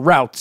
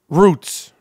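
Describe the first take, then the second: First: The vowel sounds like the 'ow' in out. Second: The vowel sounds like the 'oo' in boot. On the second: "Is it roots or"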